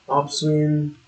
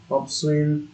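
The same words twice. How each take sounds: The two takes are said the same way.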